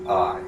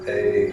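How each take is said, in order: First: The vowel sounds like the word 'eye'. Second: The vowel sounds like the letter 'A'. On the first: "like if you're looking at the word aisle" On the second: "like faith"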